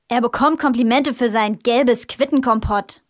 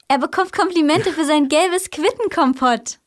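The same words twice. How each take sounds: First: It is said in an angry tone. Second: It is said in a joyful tone.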